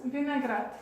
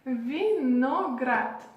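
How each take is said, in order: First: "vinaigrette" joined up as vee-na-GRAT; Russian pronunciation. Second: "Vinaigrette" very slowly as vee-no-GRAT; syllable by syllable. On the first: Teacher saying grape normally after sounding it out, Russian pronunciation. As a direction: say "vinaigrette" in one go as Russian vinagrat. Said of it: "On prononce". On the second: Teacher sounding out the hardest word, grape, syllable by syllable. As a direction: break "Vinaigrette" into slow, separate Russian syllables, vi-no-grat. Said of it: "On prononce vinaigrette". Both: Shown as a demonstration.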